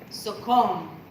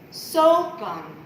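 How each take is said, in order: First: The stress is on the second syllable. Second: The stress is on the first syllable. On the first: The speaker calls it right. "it's on the second syllable" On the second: The speaker calls it wrong. "the emphasis is not on the first syllable"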